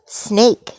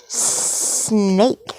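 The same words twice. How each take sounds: First: Said in the usual way. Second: "Snake" with long hissed S and held N. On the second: Pretend. Parent playing snake for a child, "Snake" stretched with hissing. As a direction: hiss the start of "Snake" and stretch it out.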